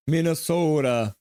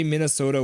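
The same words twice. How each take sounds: First: Slow Minnesota accent with a long O. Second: Said in the usual way. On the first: Shown as a demonstration. Streamer obliging a viewer's request, Minnesota accent. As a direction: stretch the O like a Minnesotan. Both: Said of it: "say Minnesota with a Minnesota accent".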